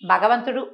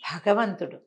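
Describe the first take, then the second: First: The first consonant is unaspirated, a plain b. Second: The first consonant is aspirated, with a breathy release. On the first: The speaker calls it wrong. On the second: The speaker calls it right.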